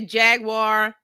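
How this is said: It is said with an American pronunciation. "Americans say"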